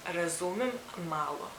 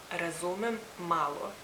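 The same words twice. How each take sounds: The two takes are said the same way.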